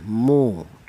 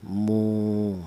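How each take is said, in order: First: The vowel is short, one beat. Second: The vowel is long, two beats. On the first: "dibaca pendek satu ketukan" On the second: "maka ini dipanjangkan"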